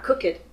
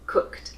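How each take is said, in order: First: The ending is an extra syllable, like 'it'. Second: The ending is a single short t sound. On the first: The speaker calls it wrong. "not cook it" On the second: The speaker calls it right.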